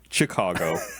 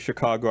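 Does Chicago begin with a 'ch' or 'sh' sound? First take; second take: ch; sh. First: The word begins with a hard 'ch' sound. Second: The word begins with a soft 'sh' sound.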